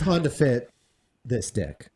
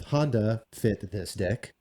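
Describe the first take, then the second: First: The pause falls at a natural point in the name. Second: A pause breaks the name at an awkward point. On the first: The speaker calls it right. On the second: The speaker calls it wrong.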